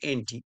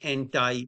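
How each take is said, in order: First: The word anti ends with an ee sound. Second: The word anti ends with an eye sound. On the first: This is the British-style way. "আমরা বলি এনটি" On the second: This is the American way. "আমেরিকানকে সবকিছু আই করতে হবে"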